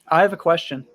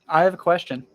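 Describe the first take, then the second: Both takes have the same delivery.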